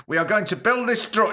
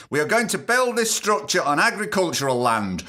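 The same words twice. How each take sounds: First: A hint of an Indian accent, pitched higher, cut off; started Indian accent. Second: Said in the usual way. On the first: Reading the professor's quote, briefly in a mock Indian accent. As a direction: begin the quote in a light mock Indian accent then stop. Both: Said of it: "I'm not gonna do an Indian accent".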